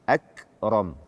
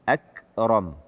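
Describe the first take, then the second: No difference in how they are said.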